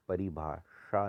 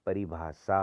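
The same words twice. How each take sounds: First: परिभाषा with retroflex "shaa"; wrong heavy sh. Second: परिभाषा as "paribhaasaa"; lighter sibilant. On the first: Teacher showing the error, परिभाषा with heavy sh. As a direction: curl the tongue on षा in परिभाषा. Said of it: "नहीं होती". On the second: Teacher correcting it, परिभाषा with light s. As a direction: say परिभाषा with s-like sound. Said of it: "होती है". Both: Shown as a demonstration.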